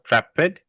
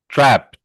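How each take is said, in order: First: The ending is said as an extra 'id' syllable. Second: The ending is said as a soft T sound. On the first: The speaker calls it wrong. "this word is not trepid" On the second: The speaker calls it right. "it's with a soft T. It's not a id or a d"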